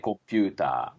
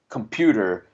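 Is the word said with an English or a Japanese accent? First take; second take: Japanese; English. First: It is said with a Japanese accent. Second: It is said with a native English accent.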